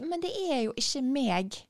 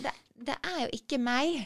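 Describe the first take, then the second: First: "meg" said with a hard g, as /meg/, eastern way; Oslo-style meg. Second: "meg" said as "mæi", Bergen diphthong, no g. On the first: Trying out Oslo speech instead of Bergen, "meg" with hard g. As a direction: end on an eastern "meg" with the g sounded, not "mæi". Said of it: "Hørte du det?". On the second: Bergen speaker returning to her own "meg" as "mæi". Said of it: "å snakke på den måten". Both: Shown as a demonstration.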